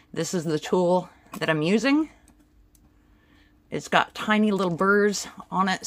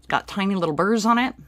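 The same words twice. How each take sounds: First: Talking through a face mask; muffled behind a mask. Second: Louder, faster repeat to be understood; clearer repeat. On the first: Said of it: "trying to talk with the mask on my face". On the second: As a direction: say it again, clearer. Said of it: "Sorry, trying to talk with the mask on my face". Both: Real, not acted.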